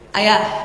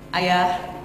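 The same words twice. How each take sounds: First: The call is a little higher in pitch. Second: The call is at a normal, low pitch. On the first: A second call after being ignored. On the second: A first, ordinary call.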